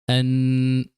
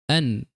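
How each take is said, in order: First: The ending carries an extra added nasal sound. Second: The ending carries no extra nasal sound. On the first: The speaker calls it wrong. "what would be wrong is to say here" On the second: The speaker calls it right. "So we would say an"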